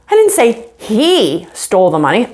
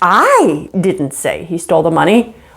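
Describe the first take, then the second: First: The stress falls on the word he. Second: The stress falls on the word I. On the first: Someone else took the money. "somebody stole the money, but it was someone else" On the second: Someone else said it. "you're not the one that said it, somebody else did"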